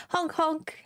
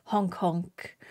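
First: "Honk honk" with a crisp breathy H, said high; clear H. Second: "Honk honk" said low, with the H fading; dropped H. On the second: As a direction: drop the H in "Honk honk". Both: Shown as a demonstration. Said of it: "I need to pronounce my H's".

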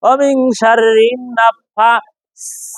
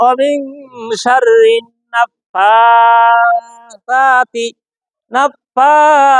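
First: Imitating common readers, sharp hissed s in "নাফাসাতি"; mistaken sin pronunciation. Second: Slow, stretched "নাফাসাতি" with a soft lisped th for the s; soft tongue-tip sound. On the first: Teacher shows what many say wrongly, sharp-s "নাফাসাতি". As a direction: recite "নাফাসাতি" with a plain whistling s. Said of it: "সিন ব্যবহার করি". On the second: Shown as a demonstration. Teacher models the correct recitation, soft th in "নাফাসাতি". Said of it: "সা জিহ্বার আগা থেকে নরম ভাবে".

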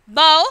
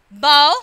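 First: Bow said loudly to rhyme with cow; OW as in how. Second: Bow said loudly to rhyme with go; O as in tomorrow. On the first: Teacher reading the how list, bow with OW. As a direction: give bow the "ow" glide of how. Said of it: "pronounced as in how". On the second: Teacher reading the tomorrow list, bow with long O. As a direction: give bow a long "oh" vowel. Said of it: "pronounced as in tomorrow". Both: Shown as a demonstration.

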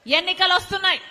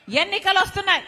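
First: Calling out to the crowd. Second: Said in the usual way. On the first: Real, not acted. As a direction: announce it like a rallying cry. Rally speech, repeated warning. (గట్టిగా పిలుపు)

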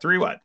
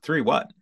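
First: "Three what?" much higher and louder, disbelieving; incredulous. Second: Stunned question. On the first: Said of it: "Like, kinda incredulous". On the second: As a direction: ask "Three what?" flatly, still taking it in. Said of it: "Just like that". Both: Retold or imitated.

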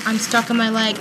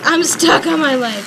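First: Said in the usual way. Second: Higher, louder exasperated complaint; real frustrated outburst; frustrated exclaim. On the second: Real, not acted. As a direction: stress stuck in exasperation. Repeats complaint, second louder.

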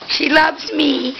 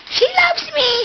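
First: Said in the usual way. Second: "She loves me" up high with loves stressed; high pet-talk. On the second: Shown as a demonstration. Owner cooing to her corgi Emily, "She loves me" in high pet voice. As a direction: coo "She loves me" much higher, falling on loves.

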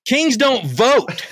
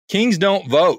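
First: Put-on Kings, don't, vote each spelled out slowly, higher, as if to a child; slow emphatic punchline. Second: The punchline said through a laugh; laughing retort. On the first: Shown as a demonstration. Repeating the slogan to the host, slow and emphatic. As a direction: lean hard on every word of Kings don't vote. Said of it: "Think about the absurdity of what you're saying". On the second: Retold or imitated. Retelling his comeback to the staff member, laughing. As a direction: chuckle while delivering the comeback. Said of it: "I said".

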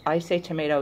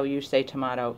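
First: "tomato" said as toh-MAY-toe, the American way; "tomato" with a long AY, toh-MAY-toe; say tomayto. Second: "tomato" said as toh-MAH-toe, the British way; "tomato" with a broad AH, toh-MAH-toe; say tomahto. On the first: Reading the ketchup case's fine print, tomato as toh-MAY-toe. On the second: Finishing the fine print, answering with toh-MAH-toe. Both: Shown as a demonstration. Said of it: "it actually says".

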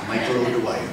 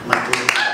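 First: Said in the usual way. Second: Name rolled out in a light Irish brogue; mellifluous Irish lilt. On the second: Shown as a demonstration. Showing off his stage name in a mild Irish brogue. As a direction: savour "O'Dwyer" with a gentle Irish ring. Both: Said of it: "It has a very mellifluous sound".

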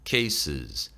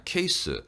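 First: "cases" with a clear final -es; low, falling "cases", plural ending kept; plural ending sounded. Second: "케이스" as a singular, no final -es; singular-sounding "케이스"; dropped plural ending. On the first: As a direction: say both syllables of "cases". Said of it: "복수를 살려주세요". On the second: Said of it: "단수로만 읽는데". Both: Shown as a demonstration.

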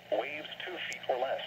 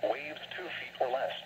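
The two takes are said the same way.

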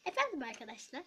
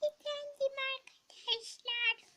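First: Said in the usual way. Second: High, strained put-on voice; high odd voice. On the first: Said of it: "Aa, evet, unutmuşum". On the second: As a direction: squeak it out oddly. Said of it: "Neden sesini böyle çıkarıyorsun?".

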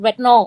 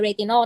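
First: "Retinol" in American accent, as two syllables, ret-no. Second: "Retinol" in three Thai syllables, re-ti-non; Thai reading. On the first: Showing co-host her own way, "Retinol" in American accent. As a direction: say "Retinol" American-style, dropping the middle vowel. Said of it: "แพรออกเป็นแบบ American accent". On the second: Explaining the Thai reading to co-host, "Retinol" as re-ti-non. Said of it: "ถ้าอ่านแบบไทยก็อ่านว่า". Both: Shown as a demonstration.

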